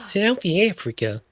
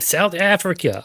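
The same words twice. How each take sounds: First: It is said in a mixed put-on southern-hemisphere accent. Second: It is said in the speaker's ordinary accent.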